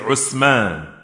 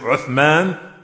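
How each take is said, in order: First: It starts with 'oo' and has an 's' sound. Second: It starts with 'oo' and has a 'th' sound. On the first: This is how some regional speakers say it. "they say Usman" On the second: This is the standard pronunciation. "Instead of saying Uthman"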